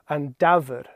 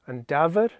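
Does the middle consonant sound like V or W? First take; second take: V; V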